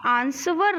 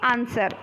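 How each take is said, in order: First: A W sound is heard in the middle. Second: No W sound is heard in the middle. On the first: The speaker calls it wrong. "आप आंसवर नहीं बोलते हो" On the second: The speaker calls it right. "आंसर बोलते हो"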